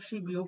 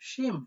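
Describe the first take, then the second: First: A b sound links the two syllables. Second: Nasal m and n sounds link the two syllables. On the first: The speaker calls it wrong. "প্রথমে যেটা ছিল" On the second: The speaker calls it right. "এইটা হবে আপনাদের মূলত ষোলো সঠিক আহ, উচ্চারণ।"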